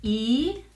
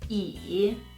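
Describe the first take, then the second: First: The syllable is said with the second tone. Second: The syllable is said with the third tone.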